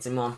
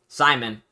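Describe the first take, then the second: First: The name is said the way the show says it. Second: The name is said the usual English way. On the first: "That's how they pronounce it in the show" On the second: "It's spelled Simon though"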